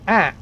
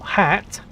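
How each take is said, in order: First: The H and the final T are both dropped. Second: The H and the final T are both pronounced. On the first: "we say at. There's no H and there's no T" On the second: "we don't say hat"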